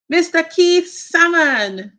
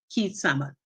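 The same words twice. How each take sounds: First: "Salmon" said as SAM-un, a as in cat; salmon with a short a. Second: "Salmon" said as SUH-mun, short uh vowel; salmon with uh sound. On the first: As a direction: open "Salmon" with a clear flat a, like "Sam". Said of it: "Is it salmon or salmon?". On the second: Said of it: "I will say Keith Salmon because". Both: Shown as a demonstration.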